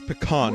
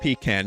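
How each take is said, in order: First: The word is said in a fancy, posh way. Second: The word is said in a plain, ordinary way. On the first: It sounds upscale, fitting a good pizza. The speaker calls it right. "You have to say it like bougie" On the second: It sounds ordinary, not upscale. The speaker calls it wrong. "not pecan"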